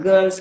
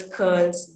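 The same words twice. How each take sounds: First: Said in the usual way. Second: Put-on "Girls" said with a k, as "curls"; Jaffna Tamil pronunciation. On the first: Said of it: "girl sound is also replaced". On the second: Shown as a demonstration. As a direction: open "curls" on a k in place of g. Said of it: "with the k sound".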